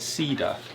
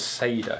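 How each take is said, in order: First: The E in the name sounds like 'ee'. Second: The E in the name sounds like 'ay'. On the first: The speaker calls it wrong. "We always call it Cedar" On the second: The speaker calls it right. "because the E is like an A sound"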